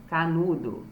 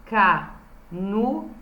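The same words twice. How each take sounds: First: Said in the usual way. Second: Canudo split into ca, nu, do with gaps; syllable by syllable. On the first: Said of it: "escrevi embaixo". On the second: Shown as a demonstration. Teacher reading out the underlined syllables, canudo syllable by syllable. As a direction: say canudo slowly in separate syllables. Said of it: "as sílabas".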